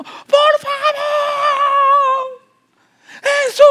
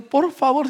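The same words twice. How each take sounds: First: Very high, loud cry of please, Jesus; shouted plea. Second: Said in the usual way. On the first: Shown as a demonstration. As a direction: scream out for Jesus to hear. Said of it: "Ella está gritando". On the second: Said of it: "no está diciendo".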